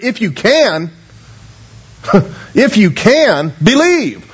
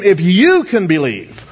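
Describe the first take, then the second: First: Slow, half-laughing "if you can believe"; Jesus echoing the doubter in disbelief; incredulous echo. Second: Said in the usual way. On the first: Shown as a demonstration. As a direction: throw the father's "if you can" back with a chuckle. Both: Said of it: "it could be rendered".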